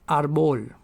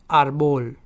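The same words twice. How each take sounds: The two takes are said the same way.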